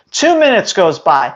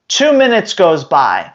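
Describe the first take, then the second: No difference in how they are said.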